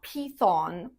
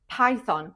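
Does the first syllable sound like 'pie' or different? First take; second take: different; pie. First: The first syllable does not sound like 'pie'. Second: The first syllable sounds like the word 'pie'. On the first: The speaker calls it wrong. "It's not Python" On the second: The speaker calls it right. "The correct way is Python. Pie like a pie"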